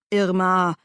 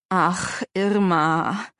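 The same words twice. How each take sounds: First: Admonishing. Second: Weary, tormented sigh of a name; pained. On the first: Uncle restraining his angry wife, admonishing. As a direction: check her with just her name. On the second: Uncle answering his pressing wife, pained. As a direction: groan it as if cornered. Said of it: "Stimme klang gequält". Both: A narrator's reading.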